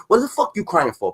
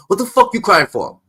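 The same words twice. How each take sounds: First: Said in the usual way. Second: Louder taunt. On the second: Real, not acted. Streamer taunting Jim Jones again, louder. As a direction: repeat it louder, pitched up. Repeated taunt, pushed harder.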